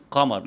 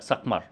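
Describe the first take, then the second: First: Said in the usual way. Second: سقمر with an extra s before the q; child's سقمر, s-initial; added fricative. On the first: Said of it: "زي كلمة قمر". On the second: Shown as a demonstration. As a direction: say سقمر, s tacked on the front. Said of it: "يزود صوت ساكن احتكاكي".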